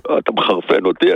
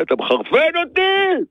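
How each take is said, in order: First: Very low, contained warning; restrained exasperation. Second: High-pitched, angry outburst; exasperated outburst. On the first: Fed-up hardware seller to his customer, low restrained exasperation. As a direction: say it low, holding the temper in. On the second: Fed-up seller snapping at a clueless customer, exasperated outburst. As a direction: burst out at the end of your patience. Same complaint bursts out at customer. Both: Real, not acted.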